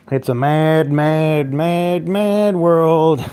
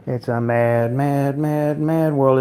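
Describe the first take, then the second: First: Loud title shout. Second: Said in the usual way. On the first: Acted. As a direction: belt out the movie title, rising up on each mad.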